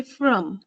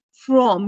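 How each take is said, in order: First: From with a reduced schwa, like "frum"; weak form. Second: From with a full, stressed O vowel; strong form. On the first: Teacher showing what you say, weakened from. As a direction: weaken the vowel in from to uh. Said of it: "is weakened to the". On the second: Teacher showing what you don't say, strong form of from. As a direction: say from fully, rhyming with Tom. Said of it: "the strong form is not used". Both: Shown as a demonstration.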